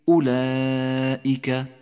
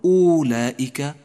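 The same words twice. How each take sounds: First: The first vowel is a short u sound. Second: The first vowel is a long u sound. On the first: The speaker calls it right. "ولكن أولئك" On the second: The speaker calls it wrong. "لا تقل أولئك"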